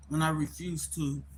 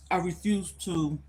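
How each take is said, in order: First: Talking with food in mouth; words round a mouthful; mouth full. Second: Said in the usual way. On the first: Real, not acted. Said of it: "I had something in my mouth".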